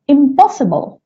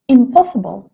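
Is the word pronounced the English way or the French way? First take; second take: English; English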